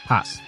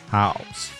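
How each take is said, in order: First: The vowel stays a single flat ah. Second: The vowel glides from ah toward oo. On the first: "that ow changes to ah" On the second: "together it becomes house"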